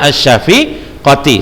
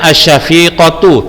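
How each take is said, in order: First: The word ends with an 'i' vowel. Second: The word ends with an 'u' vowel. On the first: The speaker calls it wrong. "Ustaz membacanya malah asy-syafiqati" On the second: The speaker calls it right. "seharusnya Ustaz membacanya asy-syafiqatu"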